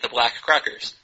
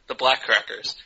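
First: The stress is on the word Crackers. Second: The stress is on the word Black.

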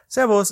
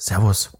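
First: It is said with a greeting intonation. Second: It is said with a farewell intonation.

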